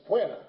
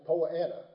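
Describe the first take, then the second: First: Deep South: "puana" squeezed into two syllables, poo-AH-nuh; "puana" said in a Deep South accent as two syllables, a touch louder; Deep South pronunciation. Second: Southern pronunciation. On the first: Lecturer showing how the Deep South says the grass name, Deep South accent. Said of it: "In the Deep South". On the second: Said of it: "In the South". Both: Shown as a demonstration.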